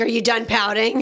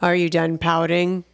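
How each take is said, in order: First: It is said in a plain voice. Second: It is said in a grumpy voice.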